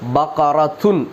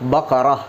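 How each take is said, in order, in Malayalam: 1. വാക്ക് പൂർണ്ണമായ 'tun' ശബ്ദത്തിലാണ് അവസാനിക്കുന്നത്. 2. വാക്ക് മൃദുവായ 'ah' ശബ്ദത്തിലാണ് അവസാനിക്കുന്നത്. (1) "ബഖറത്തുൻ എന്നാണ്" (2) "ആ താൻ്റെ അവിടെ ഒരു ഹ എന്നുള്ളൊരു സൗണ്ട് നമ്മൾ പ്രയോഗിക്കാറുണ്ട്"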